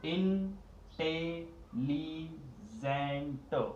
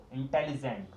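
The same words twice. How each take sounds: First: इंटेलिजेंट broken into slow separate syllables, in-tel-li-gent. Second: Said in the usual way. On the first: Shown as a demonstration. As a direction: stretch इंटेलिजेंट out very slowly, beat by beat. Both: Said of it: "four syllable यानी".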